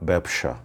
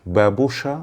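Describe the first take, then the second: First: ব্যবসা said as "ব্যাবশা", two syllables; second variant. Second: ব্যবসা said as "বেবোসা", three syllables; first variant. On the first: (ব্যবসা উচ্চারণ ব্যাবশা) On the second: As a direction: give ব্যবসা in full as বেবোসা. (ব্যবসা উচ্চারণ বেবোসা) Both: Shown as a demonstration. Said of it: "দুটি উচ্চারণ হয়".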